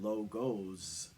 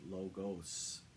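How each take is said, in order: First: The word ends with a buzzing Z sound. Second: The word ends with a hissing S sound. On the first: It means images that represent a group. "logos with a Z" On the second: It means logic or knowledge. "the S is pronounced S"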